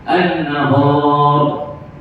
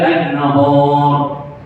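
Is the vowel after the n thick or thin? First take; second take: thick; thick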